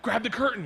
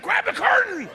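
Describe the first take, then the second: First: Said in the usual way. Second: High, loud frantic command; sudden shrieked urgent repeat; panicked yell. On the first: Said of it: "that voice in your head goes". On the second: Acted. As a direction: scream the order in a panic. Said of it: "He's like".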